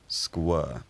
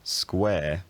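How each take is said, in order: First: The vowel is central. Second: The vowel is front. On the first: This is the hypothetical shifted pronunciation. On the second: This is the present-day pronunciation.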